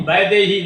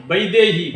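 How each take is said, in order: First: वैदेही with a flat open "a" for the first vowel; the wrong way: वैदेही as "badehi"; वैदेही said the Hindi way, open "a"; wrong pronunciation. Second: वैदेही with the first vowel gliding "ə-i"; वैदेही with a Maithili "əi" glide; Maithili ai sound. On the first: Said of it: "वैदेही नहि". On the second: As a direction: say वैदेही as "bəidehi". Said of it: "एकर उच्चारण अपन छै". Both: Shown as a demonstration.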